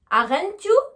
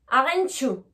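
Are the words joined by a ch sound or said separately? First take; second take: separately; joined. First: The t and y are said separately. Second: The t and y merge into a ch sound. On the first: The speaker calls it wrong. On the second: The speaker calls it right.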